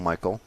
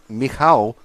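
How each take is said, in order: First: The name is said with an English pronunciation. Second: The name is said with a Polish pronunciation. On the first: "but we call him Michael" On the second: "is how you're meant to pronounce his name in proper Polish"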